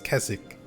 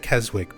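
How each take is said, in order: First: The W in the middle is silent. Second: The W in the middle is pronounced. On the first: The speaker calls it right. "You don't really pronounce the W" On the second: The speaker calls it wrong. "I always say Keswick"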